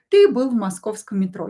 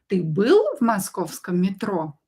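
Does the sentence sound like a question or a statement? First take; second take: statement; question. First: It is said with the intonation of a statement. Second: It is said with the intonation of a question. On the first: It tells that the listener was in the Moscow metro. "it can be a statement. We can use it without a question mark" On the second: It asks whether the listener was in the Moscow metro. "if you want to ask a question, just use your intonation"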